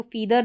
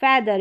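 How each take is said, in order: First: "फीदर" with long ee in the first syllable; wrong EE vowel. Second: "फेदर" with open eh in the first syllable; correct short E. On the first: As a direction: say "फीदर" as a misreading with ee. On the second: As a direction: say "फेदर" with eh, not ee. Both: Shown as a demonstration. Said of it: "इसको फीदर नहीं पढ़ेंगे".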